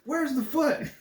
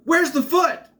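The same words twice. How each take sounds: First: High, giggly replay of the line; laughing repeat. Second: High, loud yelled question; mock yell. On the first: Retold or imitated. Reviewer giggling at his favorite line, high pitched. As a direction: say it again, cracking up. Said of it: "repeats the line laughing". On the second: Someone in the crowd yelling out, high and loud. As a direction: shout it up high like a panicked kid. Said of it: "someone yells out".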